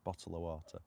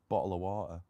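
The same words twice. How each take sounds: First: Every sound is said fully in standard English. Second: Sounds are dropped and joined in a Manchester accent. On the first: "properly, you know, full English" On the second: "North Manchester, we miss out words and join words together"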